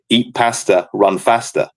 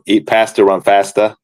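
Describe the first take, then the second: First: It is said in a northern English accent. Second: It is said in an American accent.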